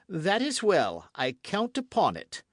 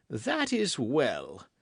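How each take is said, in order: First: Seal it with triumph; satisfied king. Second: Slow, drawn-out approval; satisfied king. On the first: King retiring from the queen, triumphant. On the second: King leaving the queen, slowly satisfied. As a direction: savour the victory. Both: A narrator's reading. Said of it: "The king went away enchanted".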